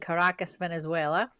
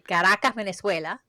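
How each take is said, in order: First: It is said with an English accent. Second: It is said with a Spanish accent.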